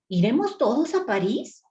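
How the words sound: It is said as a question, rising.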